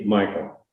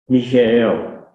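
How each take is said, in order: First: The name is said the American way. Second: The name is said the non-American way. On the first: This is how people in America say it. "Here we say Michael" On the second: This is how people outside America say it. "over the whole world, except here in America, ... they pronounce it as Michael"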